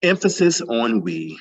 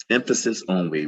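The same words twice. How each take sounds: First: "we" hit louder and higher, said slowly; stress on we. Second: Said in the usual way. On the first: Shown as a demonstration. Reading a participant's note to the workshop, stressing "we". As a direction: lean hard on "we" to make the point.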